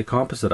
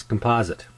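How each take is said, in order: First: "composite" with stress on COM, KOM-puh-zit; Canadian "composite". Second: "composite" with stress on POS, kum-POZ-it; American "composite". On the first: Telling viewers how Canadians say "composite". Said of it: "We say composite up here". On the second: Recounting the critic's American "composite". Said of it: "he says composite". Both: Shown as a demonstration.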